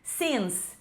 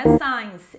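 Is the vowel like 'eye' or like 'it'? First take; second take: it; eye. First: The vowel sounds like 'it'. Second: The vowel sounds like 'eye'. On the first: The speaker calls it right. "é since" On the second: The speaker calls it wrong. "Vejo muitos alunos falando science, mas não é science"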